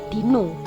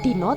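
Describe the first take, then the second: First: The final vowel is the taling-tarung o sound. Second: The final vowel is the plain, unmarked Javanese sound. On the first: It means dinosaur. The speaker calls it wrong. "kalau pakai taling tarung nanti dibacanya itu ... Dino" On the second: It means day. The speaker calls it right. "bukan Dino"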